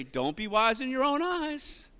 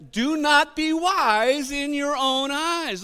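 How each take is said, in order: First: Said in the usual way. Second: Slow, high, stretched out line; drawn-out preacher emphasis; slow emphatic scripture reading. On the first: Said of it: "Look at your neighbor and say". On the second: Shown as a demonstration. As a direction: lean on every word, slowly. Pastor stresses scripture slowly.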